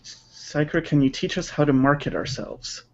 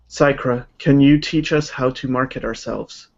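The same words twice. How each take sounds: First: It is read with a lively, varied voice. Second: It is read in a flat, monotone voice.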